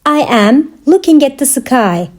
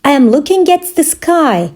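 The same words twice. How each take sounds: First: Measured, separated phrases; careful teaching repeat. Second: Said in the usual way. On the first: Shown as a demonstration. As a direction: pause after "I am". Teacher repeats answer for learners.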